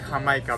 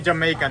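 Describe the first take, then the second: First: It is said with a Spanish pronunciation. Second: It is said with an English pronunciation. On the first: "Mexican pronunciation" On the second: "you guys say"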